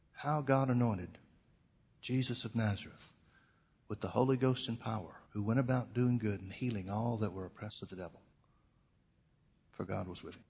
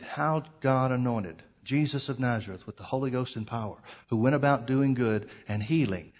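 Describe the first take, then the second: First: Gentle inner voice of the Holy Ghost; small quiet voice. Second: Said in the usual way. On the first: Retold or imitated. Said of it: "quiet voice that started coming up". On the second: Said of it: "So he began to read".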